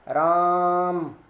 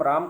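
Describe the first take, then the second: First: राम with the आ stretched very long, a bit louder; long drawn-out call. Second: Said in the usual way. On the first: Shown as a demonstration. Teacher calling a far-off boy named Ram, long and drawn out. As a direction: call राम across a distance, holding the आ. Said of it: "किसी को पुकारने के लिए". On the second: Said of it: "normal रूप से हम राम कहेंगे".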